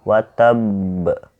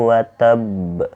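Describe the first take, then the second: No difference in how they are said.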